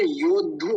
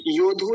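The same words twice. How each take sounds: First: "योद्धु" as yod-dhu, pausing on d; half d included. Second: "योद्धु" quick as yo-dhu, without the half d; wrong, d dropped. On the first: Teacher corrects it, the half d sounded. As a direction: double the d in "योद्धु". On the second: Teacher shows what not to say, missing half d. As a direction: skip the d hold in "योद्धु". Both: Shown as a demonstration. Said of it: "द भी है".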